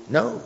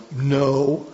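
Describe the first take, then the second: First: NO said short, high and rising; a quick, light "No" lifted high; high-pitched No. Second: NO held long on a level tone; emphatic No. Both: Shown as a demonstration. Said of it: "that emphasis on that word".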